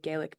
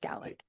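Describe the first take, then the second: First: The word has the common American pronunciation. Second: The word has a non-American pronunciation. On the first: The speaker calls it wrong. "Americans we say Gaelic" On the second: The speaker calls it right. "but it's Gaelic"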